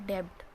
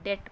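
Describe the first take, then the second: First: The b sound is pronounced in the word. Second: The b sound is silent in the word. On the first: The speaker calls it wrong. "उसको हम लोग क्या पढ़ते हैं कई बार" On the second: The speaker calls it right. "उसको हम सिर्फ डेट पढ़ते हैं। बी जो होता है वो साइलेंट होता है।"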